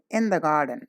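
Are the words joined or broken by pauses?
joined. The words flow together without any pause. The speaker calls it right. "together without any break or pause"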